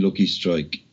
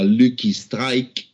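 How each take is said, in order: First: It is said with an English accent. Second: It is said with a French accent. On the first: The listener does not understand what is asked for. The speaker calls it wrong. "saying it like that" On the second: The listener understands at once what is asked for. The speaker calls it right. "with the French accent"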